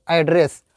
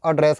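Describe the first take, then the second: First: "एड्रेस" with an open a at the start; open a sound. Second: "एड्रेस" with a short uh at the start; short uh sound. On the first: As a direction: begin "एड्रेस" like AD-ress. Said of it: "ये ए का sound है". ("एड्रेस" में "ऐ" की आवाज़) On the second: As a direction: begin "एड्रेस" like uh-DRESS. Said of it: "अ का sound है". ("एड्रेस" में "अ" की आवाज़) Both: Shown as a demonstration.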